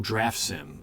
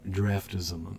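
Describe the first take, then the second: First: The name is split as draft, then sim. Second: The name is blended as draf-tism. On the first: The speaker calls it right. "Oh, draft sim" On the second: The speaker calls it wrong. "I always said draft draftism"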